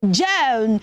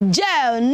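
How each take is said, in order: The two takes are said the same way.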